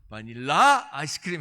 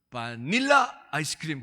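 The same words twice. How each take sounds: First: The stress is on the last syllable. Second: The stress is on the middle syllable. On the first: "이거 끝에 있나 보다" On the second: "이게 중간에 있나 보다"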